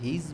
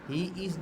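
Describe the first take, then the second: First: It is said as one contracted syllable. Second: It is said as two separate words.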